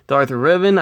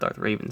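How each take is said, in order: First: The second word sounds like 'REV-an'. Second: The second word sounds like the bird 'raven'. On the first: The speaker calls it right. "I believe is how you say it" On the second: The speaker calls it wrong. "Obviously, it's not Darth Raven"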